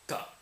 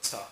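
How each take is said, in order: First: Ta with tongue against the teeth; dental t. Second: Ta with tongue up on the palate. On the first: Teacher showing viewers the dental symbol, dental ta. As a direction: make ta in the teeth, not the palate. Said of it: "say it with your teeth". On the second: Teacher showing the version to avoid, palate ta. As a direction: say ta off the palate, not the teeth. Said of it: "saying it in your palate". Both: Shown as a demonstration.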